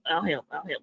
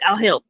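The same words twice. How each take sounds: First: Each repeat much softer, dying to nothing; fading away. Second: Said in the usual way. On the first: Acted. Offering help to Krabby, fading comically away. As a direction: let it drift off into silence.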